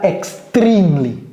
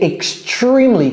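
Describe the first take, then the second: First: The 'tr' does not sound like 'tree'. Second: The 'tr' sounds like the word 'tree'. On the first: The speaker calls it wrong. "c'est pas extremely" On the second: The speaker calls it right. "comme si c'était un arbre. Tree"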